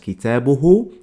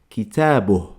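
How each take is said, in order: First: The word ends with a final vowel sound. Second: The word ends on a consonant, vowel dropped. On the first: This is the formal standard form. "que sería como lo más canónico, lo más ortodoxo, lo más normativo" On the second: This is how people say it in everyday speech. "cuando la gente habla... no se pronuncia nunca la última vocal"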